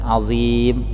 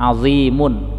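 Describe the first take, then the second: First: The word ends on a bare m sound. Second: The word ends with an added un sound.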